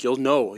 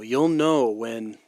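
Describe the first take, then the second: First: Said in the usual way. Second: "You'll" stretched long and slow; slow, emphatic "You'll know when"; slow drawn-out "You'll know when". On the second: Real, not acted.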